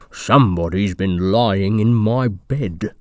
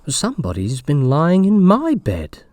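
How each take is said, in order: First: It is said in a rough, gruff voice. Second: It is said in a medium voice.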